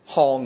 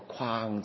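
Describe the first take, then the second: First: The word is said as hong, without a w-glide. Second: The word is said as kwaang, with a w-glide. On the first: This is the common, accepted alternative reading. "我哋不嬲都係讀腔嘅" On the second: This is the standard reading. "但其實個正音係個框字嘅"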